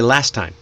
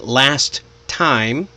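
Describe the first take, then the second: First: The two words are linked and shortened. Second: The two words are said separately. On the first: The speaker calls it right. "you can shorten it, link it together" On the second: The speaker calls it wrong. "instead of saying"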